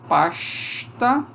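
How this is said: The s sounds like a hushing sh. "sair uma palatal aqui"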